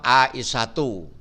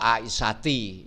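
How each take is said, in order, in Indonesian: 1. Kata ini berakhiran bunyi u biasa. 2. Kata ini berakhiran bunyi i. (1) "Contoh Aisyatu" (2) "atau Aisyati. Itu tidak boleh"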